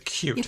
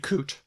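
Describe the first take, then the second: First: A 'y' sound comes before the vowel. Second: No 'y' sound comes before the vowel. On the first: "but we look very" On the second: "they drop them all"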